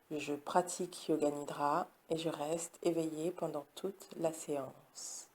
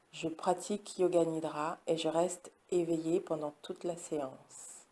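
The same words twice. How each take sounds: The two takes are said the same way.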